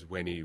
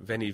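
First: The word begins with a W sound. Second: The word begins with a V sound. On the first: "it was probably pronounced by Latins as" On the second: "spelled with a V"

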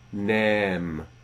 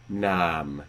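First: The long vowel is pronounced as around 1600. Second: The long vowel is pronounced as around 1400. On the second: "So 1400"

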